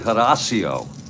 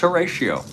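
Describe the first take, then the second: First: The name is said the Spanish way. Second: The name is said the anglicized way. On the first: The speaker calls it right. "if you want to pronounce it correctly" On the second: The speaker calls it wrong. "it's Horatio"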